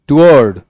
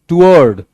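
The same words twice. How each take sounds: Both takes have the same delivery.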